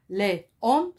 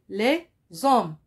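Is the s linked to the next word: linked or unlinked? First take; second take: unlinked; linked. First: The s is not linked to the vowel. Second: The s is linked to the vowel. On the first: The speaker calls it wrong. "c'est faux" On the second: The speaker calls it right. "On fait la liaison"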